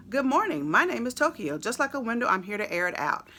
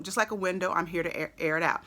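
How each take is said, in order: First: A touch higher and louder, rapped like the track; imitating the rapper's line. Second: Said in the usual way. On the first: Reading lyrics to viewers, mock rapper delivery. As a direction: mimic the rapper's bouncy delivery. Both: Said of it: "the way that he said that".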